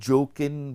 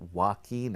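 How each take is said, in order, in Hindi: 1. नाम की शुरुआत J की ध्वनि से होती है। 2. नाम की शुरुआत W की ध्वनि से होती है। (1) "अब वो जोकिन बोल रही थी" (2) "उसकी करेक्ट प्रोनाउंसिएशन वाकीन है"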